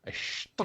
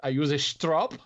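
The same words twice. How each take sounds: First: "strop" whispered with a German sh, like shtrop; a strop said the German way, "schtrop". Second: Said in the usual way. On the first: Retold or imitated. Reading a German listener's letter, says "strop" as shtrop. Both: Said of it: "where that accent just went".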